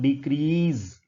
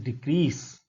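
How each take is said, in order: First: The middle consonant is a buzzing z sound. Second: The middle consonant is a hissing s sound. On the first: The speaker calls it wrong. "it is not decrease" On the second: The speaker calls it right. "it is decrease"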